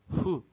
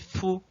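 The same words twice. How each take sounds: First: The consonant is a soft breathy puff of air. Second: The consonant is crisp and clear. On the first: "o som mais puxado para um Fu, Fu, né, um sopro, né, entre os dentes" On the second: "fazendo o som de Fu, claramente"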